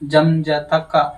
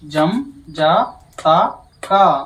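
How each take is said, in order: First: The syllables are said at a moderate, quicker pace. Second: The syllables are said slowly and evenly spaced. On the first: "medium చెప్తాను" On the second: "నిదానం చెప్తాను"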